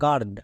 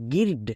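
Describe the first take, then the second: First: The vowel sounds like an 'ah' with r. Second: The vowel sounds like a short 'ih'. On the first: The speaker calls it right. "আই আর আর sound দেই" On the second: The speaker calls it wrong. "একে আমরা গির্ড বলবো না"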